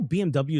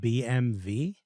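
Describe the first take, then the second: First: The last letter is said as double-u. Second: The last letter is said as vee. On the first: This is how it is usually said in English. "B M W is pronounced" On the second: This is how it is said in Germany. "it's pronounced B M V in Germany"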